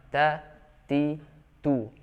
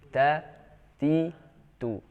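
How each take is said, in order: Both takes have the same delivery.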